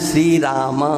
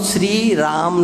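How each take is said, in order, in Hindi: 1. शब्द का अंत होठ खुलकर स्वर में बदलने से होता है। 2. शब्द का अंत 'm' पर होठ बंद होकर होता है। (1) "माँ का उच्चारण करना है" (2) "श्री राम नहीं बोलना है"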